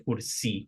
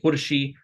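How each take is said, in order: First: The middle consonant is an s sound. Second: The middle consonant is an sh sound. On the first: "some people say kursi with an S sound" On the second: "Some people say kurshi"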